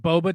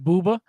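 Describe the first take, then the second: First: The first vowel is an 'oh' sound. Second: The first vowel is an 'oo' sound.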